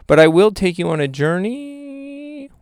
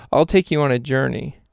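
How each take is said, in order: First: Slow, sliding up high on the last word; odd put-on voice. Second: Said in the usual way. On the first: Host grandly promising listeners a journey, silly voice. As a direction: stretch the ending into a silly rising voice. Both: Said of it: "What was that voice?".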